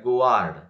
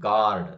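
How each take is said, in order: First: A u or w sound follows the g. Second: No u or w sound follows the g. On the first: The speaker calls it wrong. "Don't say like that ಗುವಾರ್ಡ್" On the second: The speaker calls it right. "We have to pronounce ಗಾರ್ಡ್"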